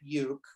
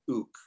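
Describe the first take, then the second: First: The word begins with a 'you' sound. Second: The word begins with an 'oo' sound. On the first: It is the speaker's own habitual way. "I call it uke" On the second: It is how native Hawaiians say it. "the Hawaiians call it an ook"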